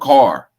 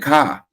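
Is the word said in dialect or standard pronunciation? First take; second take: standard; dialect. First: It is said in a standard pronunciation. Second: It is said in a local dialect. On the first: "No, car, bar" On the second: "I say ka and ba"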